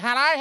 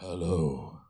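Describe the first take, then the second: First: The voice is at its normal pitch. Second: The voice is dropped low and deep. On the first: The caller is an ordinary acquaintance. "usually when you answer the phone, and it's normally" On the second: The caller is someone the speaker loves. "your voice drops 2 octaves"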